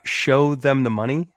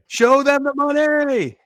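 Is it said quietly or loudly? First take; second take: quietly; loudly. First: It is said quietly, without shouting. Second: It is shouted loudly with energy.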